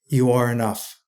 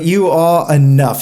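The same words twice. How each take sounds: First: It is said in an American accent. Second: It is said in an English accent.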